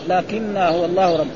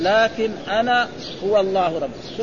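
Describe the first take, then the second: First: The two words merge into one with doubled n. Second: The two words are said separately with the glottal stop. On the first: "ثم حذفت الهمزة وأدغمت النون في النون" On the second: "أصله كان لكن أنا هو الله ربي"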